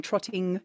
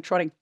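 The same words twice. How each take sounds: First: "trotting" with a clear T in the middle; careful hard T in "trotting"; T fully pronounced. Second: "trotting" said casually as "trodding". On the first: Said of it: "I'm just saying trotting". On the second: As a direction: tap the middle of "trotting" like "trodding". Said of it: "my T's become D's". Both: Shown as a demonstration.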